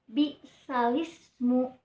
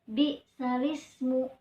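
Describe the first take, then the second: No difference in how they are said.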